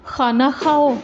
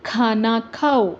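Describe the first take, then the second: First: खाना खाओ with a rough throat kh; the wrong way, खाना खाओ with a throaty x. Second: खाना खाओ with aspirated kh, slowly; खाना खाओ, slow and careful; correct kh. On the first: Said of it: "अगर हम कहेंगे". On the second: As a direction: say खाना खाओ with a clear breathy kh. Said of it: "For example". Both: Shown as a demonstration.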